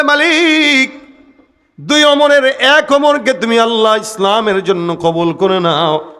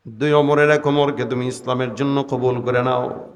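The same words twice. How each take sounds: First: High, drawn-out plea in prayer; pleading call to God. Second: Said in the usual way. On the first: Retold or imitated. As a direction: call out imploringly, easing down at the end. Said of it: "আল্লাহর কাছে হাত পেতে ডাক দেয়া বলে". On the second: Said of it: "নবী দোয়া করছেন".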